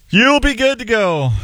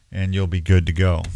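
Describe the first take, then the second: First: High, sing-song "good to go"; sing-song sign-off. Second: Said in the usual way. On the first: Real, not acted. Sign-off line said twice.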